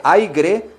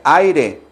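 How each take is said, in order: First: "aire" with intrusive g, AI-gre; drawn-out wrong "aire" with added g; wrong pronunciation. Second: "aire" as AI-re, no g; deliberate correct "aire"; correct pronunciation. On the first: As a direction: say "aire" slowly as mistaken "aigre". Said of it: "que no se dice". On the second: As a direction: say "aire" slowly with a clean tapped r. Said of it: "se dice". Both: Shown as a demonstration.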